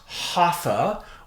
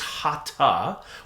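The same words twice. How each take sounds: First: It is said the common Western English way. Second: It is said the traditional Sanskrit way. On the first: The speaker calls it wrong. "in the West they know as" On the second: The speaker calls it right. "the proper Sanskrit pronunciation is"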